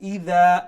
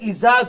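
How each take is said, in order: First: The middle consonant is a soft th sound. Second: The middle consonant is a hard z sound. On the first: The speaker calls it right. "Mulayam করি ইদা" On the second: The speaker calls it wrong. "ইজা যদি কই ... যা উচ্চারণ হয়ে যায়"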